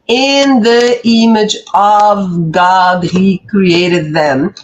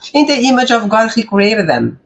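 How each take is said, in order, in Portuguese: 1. Cada palavrinha é dita de forma clara e separada. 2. As palavras são ditas juntas e as palavrinhas ficam embaçadas.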